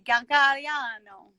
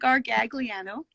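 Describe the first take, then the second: First: Said the European Italian way. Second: Said the North American way, every syllable pronounced. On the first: "European Italian way would be Gargagliano" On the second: "the North American way is Gargagliano, just every syllable"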